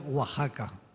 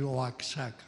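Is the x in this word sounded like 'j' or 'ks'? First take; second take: j; ks. First: The x is sounded as a throaty 'j'. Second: The x is sounded as 'ks'. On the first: The speaker calls it right. "tenéis que pronunciar Oaxaca" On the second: The speaker calls it wrong. "No se os ocurra decir Oaxaca"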